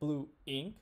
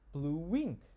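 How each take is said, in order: First: The words are said with no W sound between. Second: A W sound links the two words together. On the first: The speaker calls it wrong. "we don't say blue ink" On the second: The speaker calls it right. "we say blue wink. You can hear that W"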